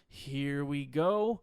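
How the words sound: It is said in a doubtful, questioning tone. The speaker doubts themselves. "It's a question. you're questioning yourself"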